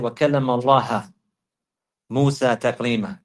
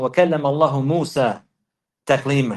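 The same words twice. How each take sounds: First: اللَّهَ with a final "ha"; changed case ending. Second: اللَّهُ with a final "hu"; original case ending. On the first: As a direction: recite اللَّهَ as "Allaha", ending on a. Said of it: "No, you have to recite it". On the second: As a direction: recite اللَّهُ as "Allahu", ending on u. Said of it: "he asked him to recite". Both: Retold or imitated.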